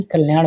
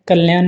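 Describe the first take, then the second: First: कल्याण ending in a curled ṇ; retroflex ṇa. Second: कल्याण mispronounced as "kalyaan", plain n; dental na. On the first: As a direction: curl the tongue back to finish कल्याण. (कल्याण के अंत में "ण" बोलें) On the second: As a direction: end कल्याण with a flat-tongued n. (कल्याण को "कल्यान" बोलें) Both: Shown as a demonstration. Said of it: "अड़ा और ना संबंधित".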